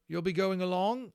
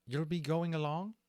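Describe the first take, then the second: First: High and loud eager question; Holland asking, retaken. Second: Holland's voice, misread as Levitas. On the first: Acted. Holland asks the little dragon, high and loud. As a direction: Holland leans in to ask Levitas. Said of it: "that was Holland talking the whole time". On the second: Shown as a demonstration. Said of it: "that's me trying to do Levitas's voice".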